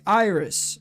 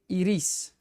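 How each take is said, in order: First: The name is said the English way. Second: The name is said the Spanish way, shorter. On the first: "In English, you would say iris" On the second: "in Spanish, you say iris"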